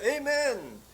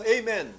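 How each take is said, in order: First: High, loud cry of "Amen"; shouted amen. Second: Loud, higher called-out amen; prompted amen. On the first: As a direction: cry "Amen" like a first word breaking free. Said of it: "Sumigaw siya". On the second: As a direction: call it out for them to repeat. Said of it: "Sabihin mo". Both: Retold or imitated.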